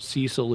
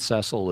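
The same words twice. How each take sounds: First: The name uses the American pronunciation. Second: The name uses the British pronunciation. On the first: "Cecil is the more American pronunciation" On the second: "Cecil is the more British and perhaps Canadian pronunciation"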